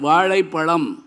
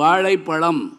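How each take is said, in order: First: The word uses the retroflex zh sound. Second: The word uses the retroflex zh sound.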